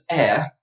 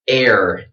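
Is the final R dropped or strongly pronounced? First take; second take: dropped; strong. First: It ends without a strong R sound. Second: It ends with a strong, hard R sound. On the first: "if I'm very fancy and I go to England, I would say this is" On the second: "in American accent"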